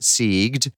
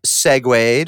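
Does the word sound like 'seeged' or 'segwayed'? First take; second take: seeged; segwayed. First: The word is said as one syllable, 'seeged'. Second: The word is said as 'seg-wayed'. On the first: The speaker calls it wrong. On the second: The speaker calls it right.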